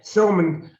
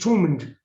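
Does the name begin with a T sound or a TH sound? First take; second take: TH sound; T sound. First: The name begins with a soft TH sound. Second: The name begins with a plain T sound. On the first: The speaker is trying to sound refined. The speaker calls it wrong. "people try to be nice" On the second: This is the ordinary local way of saying it. The speaker calls it right. "There should be no H in it. It's just Thomond"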